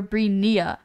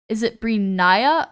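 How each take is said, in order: First: "Brinia" said bree-NEE-uh; alternative pronunciation. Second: "Brinia" said bree-NYE-uh; alternative pronunciation. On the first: Streamer offering the other guess, "Brinia" as bree-NEE-uh. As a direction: say "Brinia" with an "ee" in the middle. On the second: Streamer asking a viewer about their name, "Brinia" as bree-NYE-uh. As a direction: say "Brinia" with a long "eye" in the middle. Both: Shown as a demonstration. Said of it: "that's how you pronounce it".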